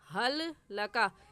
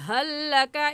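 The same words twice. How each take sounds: First: The first l is pronounced separately before laka. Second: The first l merges into one doubled l. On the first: The speaker calls it wrong. "ये पढ़ना गलत होगा" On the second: The speaker calls it right. "सही ऐसे होगा"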